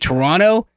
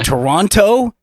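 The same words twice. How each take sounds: First: It is said in a relaxed Canadian way. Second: It is said carefully, with every syllable pronounced. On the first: The speaker is Canadian. "If they say Toronto, Canadian" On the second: The speaker is not Canadian. "not Canadian. ... over pronunciate"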